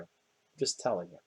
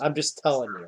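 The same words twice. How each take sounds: First: Quiet repeat. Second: Said in the usual way. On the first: Acted. NPC repeating his warning to the ranger, softly murmured. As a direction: repeat it much softer and lower, almost under the breath.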